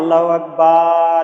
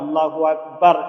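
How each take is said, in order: First: The vowel in Akbar is drawn out long. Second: The vowel in Akbar is kept short. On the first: The phrase comes to mean a drum or musical instrument. The speaker calls it wrong. "এইভাবে টেনে নিয়ে যাই" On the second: The phrase means that God is great. The speaker calls it right. "একবারে উচ্চারণ করতে হবে"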